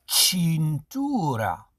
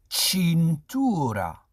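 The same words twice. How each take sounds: The two takes are said the same way.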